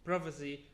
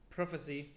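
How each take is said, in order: Both takes have the same delivery.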